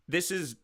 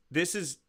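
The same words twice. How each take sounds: The two takes are said the same way.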